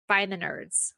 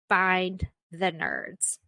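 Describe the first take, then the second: First: Said in the usual way. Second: Drawn-out, slow and deliberate; slow emphasis. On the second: Shown as a demonstration. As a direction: stretch out Find the nerds word by word.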